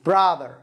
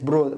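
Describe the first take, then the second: First: The first vowel is open, like a. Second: The first vowel is rounded, like o. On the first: The speaker calls it right. "افتح" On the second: The speaker calls it wrong. "ليست برودر"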